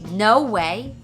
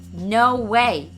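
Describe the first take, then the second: First: It is said with strong, shocked feeling. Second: It is said with strong, shocked feeling.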